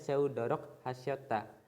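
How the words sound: There is a short pause between the words. "kayak ada spasinya gitu buat nafas dulu saat baca"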